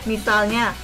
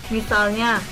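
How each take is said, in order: No difference in how they are said.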